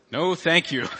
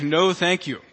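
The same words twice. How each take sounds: First: Said in the usual way. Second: "No" hit firmly, falling to a flat close; a firm, final "No, thank you."; emphatic refusal. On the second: Shown as a demonstration. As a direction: shut the invite down emphatically. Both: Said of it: "An emphatic".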